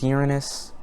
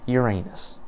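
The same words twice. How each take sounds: First: The name is said the standard way. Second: The name is said the joke way. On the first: "I know it's pronounced Uranus" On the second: "so I'm just gonna pronounce it Uranus"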